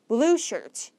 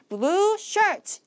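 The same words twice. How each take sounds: First: Only the word blue is stressed. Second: Both words are stressed with equal force. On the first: The speaker calls it right. "blue라는 형용사에다가만 강세를 주시는 거야" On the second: The speaker calls it wrong. "이렇게 힘 빼지 말고요"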